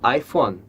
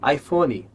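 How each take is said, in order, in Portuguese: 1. Termina limpo no som final de n. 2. Termina com um som de vogal ee acrescentado. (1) "quando é iPhone" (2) "A gente ouve muito as pessoas dizerem iPhone"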